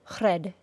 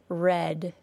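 First: The R is a quick single tap. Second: The R is smooth and continuous. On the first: The speaker calls it wrong. "we do not tap the R sound like this" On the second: The speaker calls it right. "The sound is smooth and continuous"

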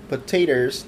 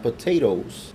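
First: The word ends with a 'ters' sound. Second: The word ends with a 'toes' sound. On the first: This is how the account name is said. The speaker calls it right. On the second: This is the ordinary word, not the account name. The speaker calls it wrong. "not potatoes"

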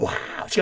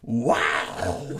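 First: The exclamation is said with little force. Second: The exclamation is said with strong force. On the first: The speaker calls it wrong. "違うな、" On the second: The speaker calls it right. "もっと力入れてな"

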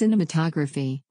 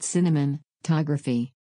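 First: The word has no extra N sound inside. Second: The word has an extra N sound inside. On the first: The speaker calls it right. "It's cinematography" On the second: The speaker calls it wrong. "not cinematography. There's no N in the middle"

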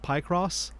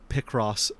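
First: The first syllable sounds like 'pie'. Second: The first syllable sounds like 'pick'. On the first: The name would seem to refer to pie or pi. The speaker calls it wrong. "There's nothing that relates to the pastry or the imaginary number" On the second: The name joins 'picture' and 'cross'. The speaker calls it right. "I've always known it as Picross"

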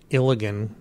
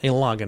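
First: It is said to rhyme with Gilligan. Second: It is said not rhyming with Gilligan. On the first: The speaker calls it wrong. "I pronounced it Ilagan, because I thought it was like Gilligan" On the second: The speaker calls it right. "It's the Ilagan Mission"

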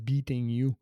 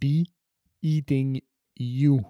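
First: It is said in one go, without a pause. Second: It is said with a small pause after be.

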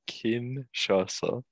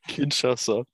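First: It is said slowly. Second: It is said at normal speed.

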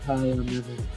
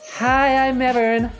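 First: It is said in a low, husky voice. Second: It is said in a normal voice.

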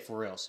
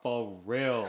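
First: It is said plainly, without strong syllable emphasis. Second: It is said with strong Pidgin-style syllable emphasis.

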